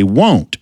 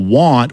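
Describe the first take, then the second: First: Want drawn out as won't, rounded and nasal; South Georgia won't meaning want; Southern won't for want. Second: Said in the usual way. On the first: Shown as a demonstration. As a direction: say want so it rhymes with don't. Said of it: "we used to say". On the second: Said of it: "the word that some of y'all call".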